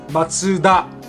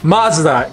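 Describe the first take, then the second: First: It has three syllables with a 'ts' sound. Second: It has two syllables with a 'z' sound. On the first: The speaker calls it right. "In Japanese, it is Matsuda" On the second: The speaker calls it wrong. "It is actually not pronounced M A Z D A"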